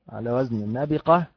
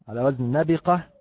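Both takes have the same delivery.

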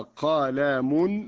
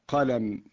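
First: The word ends with an added un sound. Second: The word ends on a bare m sound. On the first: The word carries nunation. "إذا نولنا الكلمة نقول هكذا" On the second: The word is at a pause. "لو وقفنا عليها بالسكون"

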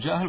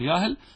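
First: The word begins with a j sound. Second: The word begins with a y sound. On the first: "بعض الناس يقول جاهل" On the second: "وفي اللهجة العامية نحن نقول إيش؟ ياهل، نقلب الجيم إلى ياء"

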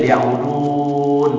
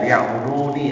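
First: The word ends on a bare 'n' sound. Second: The word ends with a pronounced final 'ni'. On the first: It follows the tajwid rule for stopping. "Kalau secara hukum tajwid ya'budun" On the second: It shows the hidden 'me' of the object. "kalau kita ini ni-nya dibaca ya'buduni"

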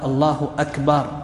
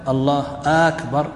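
First: The last vowel of Akbar is drawn out long. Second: The opening vowel of Akbar is drawn out long. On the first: The word comes to mean a drum. "الكبر هو الطبل" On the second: It turns the phrase into a question. "لو مد همزة أكبر"

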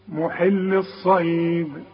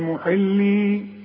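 First: The final 'ee' vowel is dropped before the next word. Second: The word ends with a long 'ee' vowel. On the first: The reader continues without stopping. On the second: The reader stops on this word.

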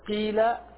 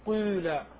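First: The first vowel is a pure i sound. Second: The first vowel is between i and u. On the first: "ليست قيل" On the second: "فتجتمع عندك الضمة والكسرة فتقول قيل"

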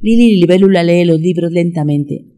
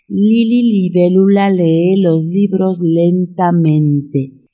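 First: It is said at a very fast pace. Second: It is said at a slow pace. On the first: "Más rápido" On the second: "Una vez más"

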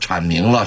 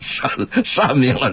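First: The first syllable begins with a 'ch' sound. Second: The first syllable begins with a 'sh' sound. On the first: This is the dictionary reading of the character. "我说铲明了什么什么什么" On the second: This is the reading passed down orally by masters. "这字准确的发音是善"

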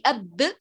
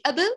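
First: The b is held with pressure, then released. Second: The b is released quickly without holding. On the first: The letter is doubled. "هذه أب لأنها باءان" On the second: The letter is single. "وهذه أب لأنها باء واحدة"

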